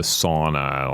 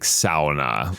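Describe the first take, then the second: First: The first syllable rhymes with law. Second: The first syllable rhymes with cow. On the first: The speaker calls it wrong. "Americans have maybe made it into sauna, like this kind of, you know, S A W N A" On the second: The speaker calls it right. "When you write the pronunciation down, it's S O W"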